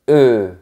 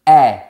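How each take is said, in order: First: The vowel is a neutral, relaxed 'uh' sound. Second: The vowel is an open 'eh' sound. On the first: "Quand on a la lettre E sans accent, on dit E" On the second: "Quand on a la lettre E avec un accent grave, un accent circonflexe ou un tréma, on dit E"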